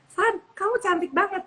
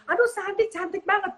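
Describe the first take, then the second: First: High, bright-hearted praise; mean every word of it; a heartfelt compliment, pitched up; sincere compliment. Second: High, sarcastic praise; mock sarcastic compliment. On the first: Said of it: "Pasti kamu seneng dong". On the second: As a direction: say it like a taunt. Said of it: "Itu kan ngajak berantem". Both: Shown as a demonstration.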